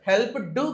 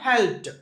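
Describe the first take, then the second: First: The ending is an extra 'doo' syllable. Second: The ending is a short 't' sound. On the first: The speaker calls it wrong. "హెల్ప్ డూ కాదు" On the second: The speaker calls it right. "ఈ డి రాసి కానీ టీ లాగా చదువుతాం"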